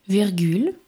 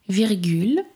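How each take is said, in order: No difference in how they are said.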